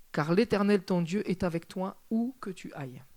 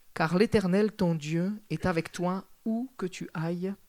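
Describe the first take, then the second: No difference in how they are said.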